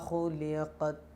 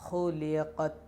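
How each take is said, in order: No difference in how they are said.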